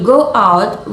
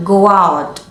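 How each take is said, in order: First: "go out" with GO and OUT kept apart; clear word break. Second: "go out" joined as "go-wout"; linked words. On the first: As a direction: separate the two words of "go out". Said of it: "with a clear break between the words". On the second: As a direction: glide from GO straight into OUT in "go out". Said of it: "we link them together". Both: Shown as a demonstration.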